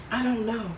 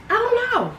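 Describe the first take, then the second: First: Said in the usual way. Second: I don't know squeaked up very high; squeaky high. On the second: Acted. Repeating "I don't know" musingly.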